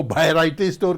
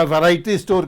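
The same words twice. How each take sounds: First: वैरायटी with the v turned into a bh or b sound; regional mispronunciation. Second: Said in the usual way. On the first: Retold or imitated. Teacher imitating how some people say it, v becomes b. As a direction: begin वैरायटी with b instead of v. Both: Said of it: "तो उसको वैरायटी store कह देते हैं".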